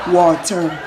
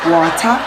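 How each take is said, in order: First: "water" with an R on the end; English pronunciation. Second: "Water" ending in an open "ah"; Jamaican pronunciation. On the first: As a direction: sound the final R in "water". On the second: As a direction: say "Water" as "wata", without an R. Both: Shown as a demonstration. Jamaican versus English way of saying it.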